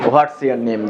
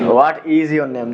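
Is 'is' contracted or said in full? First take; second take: contracted; full. First: The word 'is' is contracted onto 'what'. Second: The word 'is' is said in full. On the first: "এই সেন্টেন্সটাকে আমরা কিভাবে পড়েন" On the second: "ইজটা যদি এইভাবে দিয়ে দিত"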